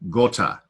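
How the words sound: The O vowel has a British quality. The speaker calls it wrong.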